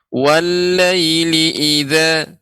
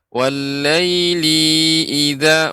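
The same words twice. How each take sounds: First: The vowel in 'li' is short and quick. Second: The vowel in 'li' is held long. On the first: The speaker calls it right. "Linya itu pendek" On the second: The speaker calls it wrong. "maka kita membaca li dengan panjang"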